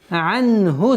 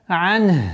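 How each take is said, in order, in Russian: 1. Слово произносится полностью, заканчивается на 'hu'. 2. Слово обрывается коротко, без конечного гласного. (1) "А если при слитном чтении не останавливаемся" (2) "При остановке... огласовка дамма аннулируется"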